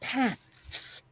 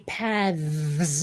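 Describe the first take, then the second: First: The th sound is voiceless, like 'th' in 'path'. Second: The th sound is voiced, like 'th' in 'this'. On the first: This matches the singular form. "instead of paths" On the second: This is the usual way people say it. "we say paths ... that extra sound into the T H"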